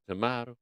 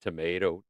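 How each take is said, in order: First: "tomato" said tuh-MAH-toh. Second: Low "Tomato", said tuh-MAY-toh. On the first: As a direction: give "tomato" a broad AH in the middle. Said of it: "I say tomato". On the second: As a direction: give low-pitched "Tomato" a long AY. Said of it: "You say tomato". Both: Shown as a demonstration.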